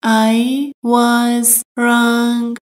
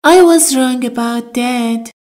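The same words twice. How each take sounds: First: "I was wrong" drawn out word by word; very slow, careful. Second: Said in the usual way. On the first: Shown as a demonstration. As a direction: spell it out slowly. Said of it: "teacher repeats slowly". (خیلی آهسته و شمرده) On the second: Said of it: "teacher models phrase".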